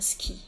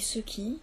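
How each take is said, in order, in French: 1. La voyelle de 'ce' tombe, ce qui le contracte. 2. Les deux syllabes de 'ce qui' sont entièrement prononcées. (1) "qui devient ce qui" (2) "la contraction de ... ce qui"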